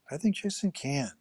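The stress is on the word 'can'.

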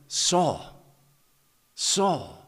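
It is said in a tender, loving tone.

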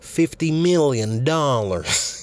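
It is said in a Doctor Evil voice.

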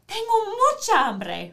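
It is said in an excited voice.

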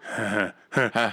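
The laugh sounds knowing, like a near trick.

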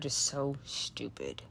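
It is said with a frustrated, angry tone. The remark can provoke a negative action. "the tone, the frustration that was displayed"

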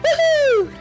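It sounds sincerely excited.

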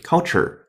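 It is said in an American accent. "美音"

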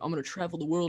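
It is said in a put-on man's voice.

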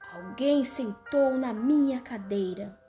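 A very deep, strong voice is used.

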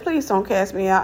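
It is said in a young girl's voice.

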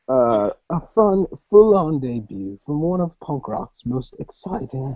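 It is read in a put-on British accent. The speaker calls it right.

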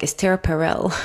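The name is said with an English accent. "with the English accent, it would be something like"

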